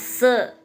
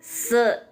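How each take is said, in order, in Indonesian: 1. Vokal setelah s terdengar seperti 'e'. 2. Vokal setelah s terdengar seperti 'e'.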